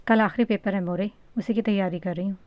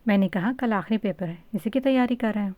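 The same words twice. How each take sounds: First: Said in the usual way. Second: Playful teasing repeat, slightly brighter; lightly teasing daughter. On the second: A narrator's reading. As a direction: tease her by repeating it. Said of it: "بالا نے گل خان کو تنگ کرتے ہوئے کہا".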